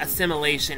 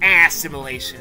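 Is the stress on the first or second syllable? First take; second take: second; first. First: The stress is on the second syllable. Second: The stress is on the first syllable. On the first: The speaker calls it wrong. "it's not assimilation" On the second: The speaker calls it right. "Emphasis on ass!"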